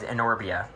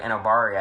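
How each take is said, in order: First: The name is said as Enorbia. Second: The name is said as Enobaria. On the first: This is how the reader pictured the name. The speaker calls it wrong. "for some reason I just read it as Enorbia" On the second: This is how the film says the name. The speaker calls it right. "in the movie they're like Enobaria"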